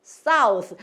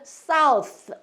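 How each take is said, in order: No difference in how they are said.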